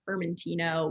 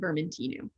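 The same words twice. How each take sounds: First: The word ends with an oh vowel sound. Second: The word ends with an oo vowel sound. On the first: This is how the name is said in Italy. The speaker calls it wrong. "the Italian pronunciation, Vermentino with the O at the end" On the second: This is how the name is said in Corsica. The speaker calls it right. "I should, since it's Corsica, be saying Vermentino, which is gonna be their typical pronunciation"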